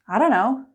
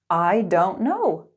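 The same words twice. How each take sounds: First: It is said at a quicker, connected pace. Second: It is said at a slower, careful pace.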